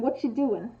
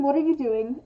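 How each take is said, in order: First: Relaxed, run-together question; casual interest. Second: Each word distinct, mildly reproachful; full, pointed question as a demo; accusing. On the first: Contrasting two tones of one question, casually interested. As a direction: toss it off as a friendly query. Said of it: "implies that someone is interested". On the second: Contrasting two tones of one question, accusing. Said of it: "there's a difference between". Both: Shown as a demonstration.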